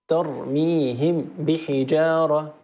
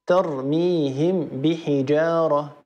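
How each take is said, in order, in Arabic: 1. الميم تُنطق كاملة وواضحة قبل الباء. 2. الميم تُنطق كاملة وواضحة قبل الباء.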